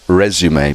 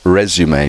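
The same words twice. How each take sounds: First: The word is said the French way. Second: The same.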